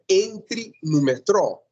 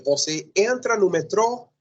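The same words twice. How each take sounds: First: Entre no metrô, high and slow like a command; imperative example. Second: Você entra no metrô, raised as a quoted example; example sentence. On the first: Teacher modelling the imperative for students. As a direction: give Entre no metrô as a clear order. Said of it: "outra coisa é dizer". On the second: Teacher quoting the present-tense version to students. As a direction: lift Você entra no metrô as a model line. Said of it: "uma coisa é dizer". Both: Shown as a demonstration.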